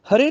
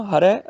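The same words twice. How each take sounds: First: ਹਰੇ said "ha-ray", closed e ending; mistaken e vowel. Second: ਹਰੈ said "ha-rai", open ending; correct ai vowel. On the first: Teacher shows the mistake, ਹਰੇ as "hare". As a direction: end ਹਰੇ on a narrow e. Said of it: "ਹਰੇ ਨਹੀਂ ਬੋਲਣਾ". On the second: Teacher corrects it, ਹਰੈ as "harai". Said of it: "ਰਾਰੇ ਨੂੰ ਤਲਾਵਾਂ ਹੈਗੀਆਂ". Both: Shown as a demonstration.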